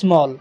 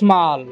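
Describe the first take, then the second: First: The vowel is a short rounded 'aw' sound. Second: The vowel is a long open 'ah' sound. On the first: The speaker calls it wrong. "ସମ୍ପୂର୍ଣ୍ଣ ଭୁଲ ଉଚ୍ଚାରଣ" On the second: The speaker calls it right. "ଏହାର ଉଚ୍ଚାରଣ କ'ଣ ହେବ"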